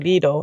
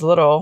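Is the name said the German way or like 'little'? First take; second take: German way; like little. First: The name is said with a German pronunciation. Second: The name sounds like the English word little. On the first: This is how the name is said in Germany. "some people say Lidl, especially in Germany" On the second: This is how the name is said in Finland. "In Finland, Lidl is pronounced as little"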